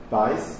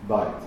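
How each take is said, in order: First: The word ends with an s sound. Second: The word ends with a t sound. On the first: This is the Yiddish pronunciation. "Von der jiddischen Aussprache, das Taf wie ein S auszusprechen, daher Beis" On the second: This is the Hebrew pronunciation. "und nicht Beit"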